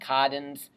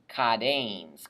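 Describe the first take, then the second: First: No vowel comes between the stem and -ns. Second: A long e comes before the final -ns. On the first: The speaker calls it wrong. "it just sounds really wimpy" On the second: The speaker calls it right. "We add in a connecting vowel"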